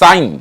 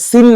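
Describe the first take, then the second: First: The vowel is an 'eye' sound. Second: The vowel is a short 'ee' sound. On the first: The speaker calls it right. "কিন্তু সাইন" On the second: The speaker calls it wrong. "এটা সিন না"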